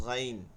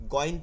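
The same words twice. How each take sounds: First: "গাইন" with a throaty Arabic gh; correct heavy ghain. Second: "গইন" with a plain Bengali hard g; wrong Bengali-style ghain. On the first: Teacher correcting students' Bengali g, "গাইন" with heavy throaty Arabic gh. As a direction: say "গাইন" full-mouthed, gh from the throat. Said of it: "এটা হবে গাইন". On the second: Teacher showing students' mistake, "গইন" with a hard Bengali g. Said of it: "গইন বাংলা না". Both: Shown as a demonstration.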